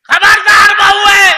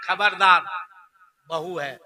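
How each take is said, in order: First: खबरदार shouted high and loud; hammed-up protective warning, खबरदार at full volume; dramatic warning shout. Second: Said in the usual way. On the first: Shown as a demonstration. Mother-in-law shouting खबरदार at her son to protect the bride. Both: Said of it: "देखिए बुढ़िया का drama".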